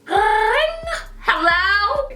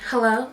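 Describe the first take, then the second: First: It is said in a plain, ordinary voice. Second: It is said in a sultry, seductive voice. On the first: The speaker calls it wrong. "Actually, no" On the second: The speaker calls it right. "This is my sexy pick up the phone voice"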